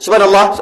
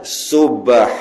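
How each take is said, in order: First: It is said fast. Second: It is said slowly.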